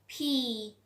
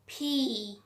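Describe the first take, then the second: First: The P is said with a strong puff of air. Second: The P is said with a strong puff of air.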